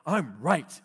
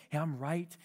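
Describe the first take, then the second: First: Louder, insistent I'm right; a harsh self-righteous claim; not gentle. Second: A gentle correction to a friend. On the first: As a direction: assert I'm right bluntly. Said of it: "and we're not gentle". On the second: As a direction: say I'm right gently. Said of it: "I'm being gentle". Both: Retold or imitated.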